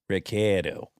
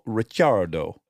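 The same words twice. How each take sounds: First: The name is said with an Australian pronunciation. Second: The name is said with an Italian pronunciation. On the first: "But he is in Aussie, so he says Ricciardo" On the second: "if you were in Italy, you would pronounce it Daniel Ricciardo because it's got two C's"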